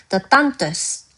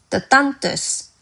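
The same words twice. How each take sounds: No difference in how they are said.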